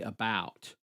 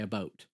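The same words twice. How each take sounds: First: The diphthong is much longer. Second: The diphthong is short and clipped. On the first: This is the US way. "a much longer vowel, a much longer diphthong" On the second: This is the Canadian way. "we say about"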